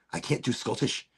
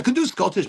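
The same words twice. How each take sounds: First: Said in the usual way. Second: Livelier, put-on Scottish accent; attempted Scottish accent. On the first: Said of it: "I can't even do it". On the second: Shown as a demonstration. Host testing whether they can manage it, Scottish accent. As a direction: switch into a hammed-up Scottish accent. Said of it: "I can do Scottish".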